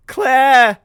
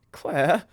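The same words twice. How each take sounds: First: Very loud, high yell; shouting a name. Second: Raised, questioning call; calling out a name. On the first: Jamie yells at Claire over the bag, shouting. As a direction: yell the name at full force. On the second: Jamie calls to Claire as the bag goes, calling out. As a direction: call the name with rising concern. Realising disaster, calling the friend. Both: Acted.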